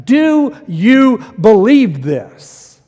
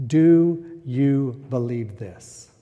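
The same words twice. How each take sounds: First: Very slow, loud, each word hammered; loud challenge. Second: Very slow, hushed, each word apart; quiet searching question. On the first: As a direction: throw the question at the crowd. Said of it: "That's the challenge". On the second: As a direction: lean in and ask it softly. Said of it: "the most important question". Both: Shown as a demonstration.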